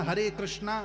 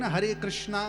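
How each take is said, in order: Both takes have the same delivery.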